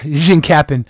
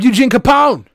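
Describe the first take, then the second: First: The surname does not sound like Capone. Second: The surname sounds like the gangster name Capone. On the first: The speaker calls it right. "But Eugene Capon" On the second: The speaker calls it wrong. "I always mispronounce your name the first time I say it"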